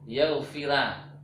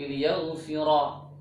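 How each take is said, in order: First: The r is pronounced light and thin. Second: The r is pronounced heavy and thick. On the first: The speaker calls it wrong. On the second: The speaker calls it right.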